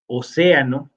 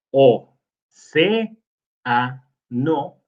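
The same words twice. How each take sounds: First: Said in the usual way. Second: "océano" broken apart as o, ce, a, no, each syllable separate; split into syllables. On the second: Shown as a demonstration. Teacher dividing a word into syllables for the class, slowly and separately. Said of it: "sí se acentúa porque es una palabra esdrújula".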